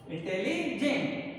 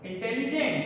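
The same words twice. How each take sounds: First: इंटेलिजेंट slowly, broken into इंटेली and जेंट; split into syllables. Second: Said in the usual way. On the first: Shown as a demonstration. Teacher showing students the two syllables, इंटेलिजेंट said slowly in parts. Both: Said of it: "तो first syllable हुआ इंटेली".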